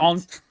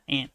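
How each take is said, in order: First: The vowel is a broad 'ah' sound. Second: The vowel sounds like the insect 'ant'. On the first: It sounds posh, like a rich person. "it sounds like something a rich person would say" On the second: It is the ordinary everyday way. "I just say aunt like a bug"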